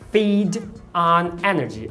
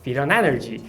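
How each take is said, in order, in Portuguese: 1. Cada palavra é dita separadamente, com pausas. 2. As palavras se juntam numa única frase ligada. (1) "Ela não fala separadamente" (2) "ela fala"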